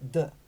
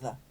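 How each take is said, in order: First: The word starts with a hard d sound. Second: The word starts with a soft th sound. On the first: "they'd say the, D E" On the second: "you don't say the, you know, T H E"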